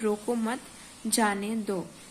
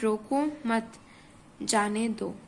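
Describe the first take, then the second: First: It is said straight through without a pause. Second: It is said with a short pause mid-phrase. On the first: "कोई चिन्ह मतलब बीच में कुछ रुकने का नहीं है" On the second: "यहाँ पे बीच में हम थोड़ा ठहराव लेंगे"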